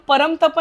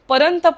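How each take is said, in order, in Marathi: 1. 't' च्या आधीचा अनुनासिक 'm' ध्वनी आहे. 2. 't' च्या आधीचा अनुनासिक 'n' ध्वनी आहे. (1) "परमतप नाही बोलले" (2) "परंतप बोललोय"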